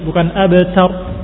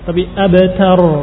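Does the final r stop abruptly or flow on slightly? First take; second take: abrupt; flowing. First: The final r stops abruptly. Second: The final r flows on slightly. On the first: The speaker calls it wrong. "Roknya jangan langsung berhenti" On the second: The speaker calls it right. "ada aliran sedikit"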